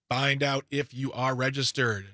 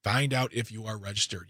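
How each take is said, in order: First: Slow, deliberate "find out if you are registered"; emphatic. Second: Measured, lower-key "Find out if you are registered"; emphatic repeat. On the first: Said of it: "Why are you saying it like that". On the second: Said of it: "make sure you understand me". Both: Real, not acted.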